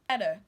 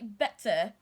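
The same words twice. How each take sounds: First: The middle T sounds like a D. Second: The middle T is a clear T. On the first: "the American will pronounce this word like this" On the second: "they also say better"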